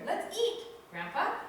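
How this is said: There is a pause before "grandpa."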